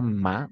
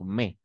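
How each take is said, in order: First: The vowel is an open 'a' sound. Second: The vowel is an 'e' sound. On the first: The speaker calls it wrong. "pas ma" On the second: The speaker calls it right. "on va prononcer mais"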